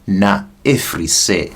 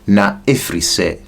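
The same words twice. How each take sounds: First: It is said slowly. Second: It is said at normal speed.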